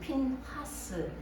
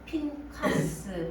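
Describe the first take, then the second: First: The middle consonant is a soft h sound. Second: The middle consonant is a hard k sound.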